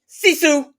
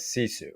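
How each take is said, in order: First: The name is said in a light, soft way. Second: The name is said in a gruff, manly way. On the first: "We love saying it that way" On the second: "probably pronounced more manly as"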